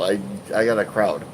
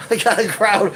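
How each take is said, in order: First: Said in the usual way. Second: High giggling repeat; laughing. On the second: Real, not acted. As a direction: laugh the line out. Same words, now laughing.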